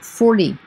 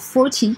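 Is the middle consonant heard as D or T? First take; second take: D; T. First: The middle consonant sounds like a soft D. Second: The middle consonant is a clear T sound.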